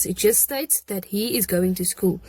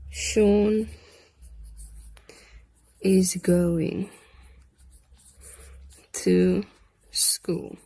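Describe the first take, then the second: First: Said in the usual way. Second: Slow dictation, word by word with long pauses; dictating slowly. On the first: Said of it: "plain explanation". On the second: Shown as a demonstration. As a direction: spell it out for the class to write. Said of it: "teacher dictating word by word".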